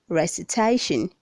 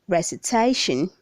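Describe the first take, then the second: Both takes have the same delivery.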